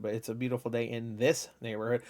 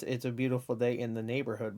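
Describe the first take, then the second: First: Quiet correction leaning on "this"; stress on THIS. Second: Said in the usual way. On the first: Shown as a demonstration. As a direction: make "this" stand out from the phrase. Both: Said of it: "you think it's".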